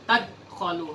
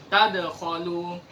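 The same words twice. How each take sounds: First: The d sound is cut short without an echo. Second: The d sound is released with an echoing bounce. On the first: The speaker calls it wrong. "bukan tadkhalu" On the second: The speaker calls it right. "harus ada qalqalahnya"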